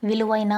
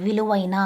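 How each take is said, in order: Both takes have the same delivery.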